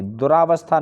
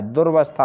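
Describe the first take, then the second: First: दुरावस्था with a long आ after दुर; wrong form दुरावस्था. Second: दुर्वस्था with र joined straight to व, no आ; correct form दुर्वस्था. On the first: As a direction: say it wrong on purpose: दु-रा-वस्था. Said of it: "दुरावस्था नहीं होता है". (गलत उच्चारण दुरावस्था) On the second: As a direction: say the right form: दुर्-वस्था. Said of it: "दुर्वस्था होता है". (सही उच्चारण दुर्वस्था) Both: Shown as a demonstration.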